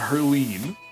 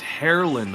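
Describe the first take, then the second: First: The last syllable sounds like 'line'. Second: The last syllable sounds like 'lin'. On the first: The speaker calls it wrong. "It's not Herline" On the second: The speaker calls it right. "It is Herlin Haluchas"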